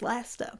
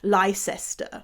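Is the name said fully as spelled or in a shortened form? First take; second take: shortened; as spelled. First: The name is said in a shortened form. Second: Every written syllable of the name is pronounced. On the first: The speaker calls it right. "no, you, you dingleberry, it's Leicester" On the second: The speaker calls it wrong. "I can get it why he said Leicester"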